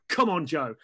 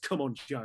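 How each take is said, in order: First: It is shouted loudly. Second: It is muttered quietly under the breath.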